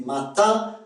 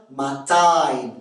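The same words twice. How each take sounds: First: Said in the usual way. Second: "matin" ending in a gliding "ah-een"; Québécois nasal diphthong. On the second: Shown as a demonstration. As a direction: stretch "matin" into ma-taïn. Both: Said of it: "Le son un se prononce ein".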